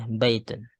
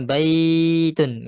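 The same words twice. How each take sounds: First: The vowel is kept short. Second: The vowel is drawn out long. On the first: The speaker calls it right. "Enggak panjang, ini pendek bacaan" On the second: The speaker calls it wrong. "bukan bacanya baitun gitu ya"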